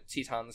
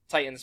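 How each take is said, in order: First: It is pronounced closer to the ancient Greek way. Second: It is pronounced the way English spelling suggests. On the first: "Titans seeming to be, like, closer to the Hellenistic pronunciation" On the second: "Titans making sense with, like, the English spelling"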